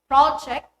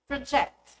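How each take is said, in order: First: The stress is on the first syllable. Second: The stress is on the second syllable. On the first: It is used as a noun. "The noun is stressed on the first syllable" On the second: It is used as a verb. "the verb is on the second"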